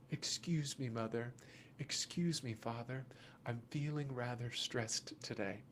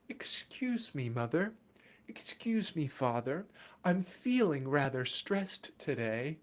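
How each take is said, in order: First: Much softer, lower mock-polite child. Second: Put-on overly polite child. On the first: Parent showing what the scream really means, softly and lower. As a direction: hush it, a meek little polite request. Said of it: "is their best way of coming and saying". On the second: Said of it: "look at you and say".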